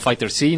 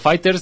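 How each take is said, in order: First: The ending is spoken as a separate letter name. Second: The ending is a plain s sound. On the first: The speaker calls it wrong. "no Fighter C" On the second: The speaker calls it right. "Se pronuncia Fighters"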